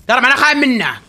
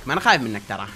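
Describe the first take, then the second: First: Repeated higher and louder in defiance; real bold challenge; defiant. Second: Said in the usual way. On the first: Real, not acted. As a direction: throw it at the enemy.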